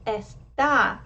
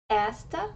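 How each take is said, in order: First: Está stressed on the last syllable; está as es-TA, slow with a strong ending; with accent. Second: Esta stressed on the first syllable; without accent. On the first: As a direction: lean on a long, open final a in está. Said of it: "with an accent". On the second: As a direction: hit the es of esta, short light ending. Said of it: "when they appear without an accent". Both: Shown as a demonstration.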